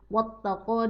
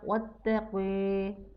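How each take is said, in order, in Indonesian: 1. Vokal akhirnya a terbuka biasa. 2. Vokal akhirnya condong ke e.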